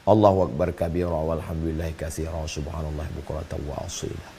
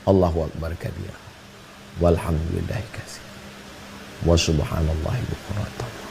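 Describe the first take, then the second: First: It is recited quickly in a single breath. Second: It is recited slowly and unhurriedly. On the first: "ada yang satu nafas" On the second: "ada orang yang pelan"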